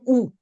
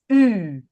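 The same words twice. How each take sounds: First: The vowel is short, with the mouth less closed. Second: The vowel is long, with the mouth nearly closed. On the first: The speaker calls it wrong. "Not an U" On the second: The speaker calls it right. "the U needs to be a little bit longer ... close your mouth"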